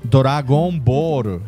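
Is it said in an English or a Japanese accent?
Japanese. Said Japanese-style, with r and an added vowel.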